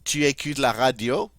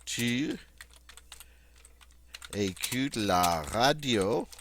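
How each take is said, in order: First: The voice rises at the end. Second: The voice falls at the end. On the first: It is a question. "Notice my voice goes up toward the end" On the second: It is a statement. "I'm just going to repeat the statement"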